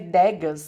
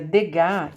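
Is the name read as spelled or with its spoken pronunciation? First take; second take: as spelled; spoken pronunciation. First: The name is read out as it is spelled. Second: The name is said with its spoken pronunciation. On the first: The speaker calls it wrong. "escreve Degas" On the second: The speaker calls it right. "mas a gente pronuncia Degas"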